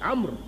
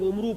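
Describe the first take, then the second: First: The name ends on the consonant 'r'. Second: The name ends with a 'u' vowel sound. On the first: The speaker calls it right. "अम्र वाव नहीं बोलेगा और ऐन पर जबर है" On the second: The speaker calls it wrong. "लोग उमरू पढ़ देते हैं उसको, वो गलत है"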